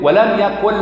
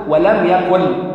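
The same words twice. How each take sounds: First: Said in the usual way. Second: ولم يكن drawn out very slowly, each sound separated; slow tajweed demo. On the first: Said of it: "أكنك ضغمت النون". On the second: Shown as a demonstration. Preacher demonstrates how ولم يكن is recited, very slowly. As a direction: stretch ولم يكن out carefully. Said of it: "أنت ما بتنطقش النون".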